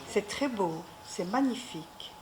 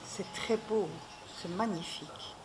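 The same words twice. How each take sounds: First: It is said more loudly. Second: It is said more softly.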